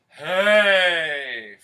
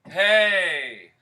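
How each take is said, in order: First: The shout sounds full and supported from below. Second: The shout sounds thin and unsupported from below. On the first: The speaker calls it right. "Feel the whoosh from below" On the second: The speaker calls it wrong. "It's not connected"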